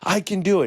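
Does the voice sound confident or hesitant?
confident. It is said loudly, with excited conviction. The boy now believes it. The speaker calls it right. "And finally, ... And he got all excited"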